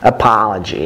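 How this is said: The stressed vowel sounds close to ah. "American is closer to ah, like"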